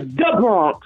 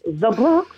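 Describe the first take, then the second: First: It is said the local Bronx way. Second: It is said in a standard, non-local way.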